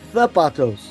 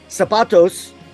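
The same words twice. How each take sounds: First: The z is pronounced with a th sound. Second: The z is pronounced with an s sound. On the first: "the letter Z has a T H sound in Spain" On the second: "in most of the Spanish speaking world"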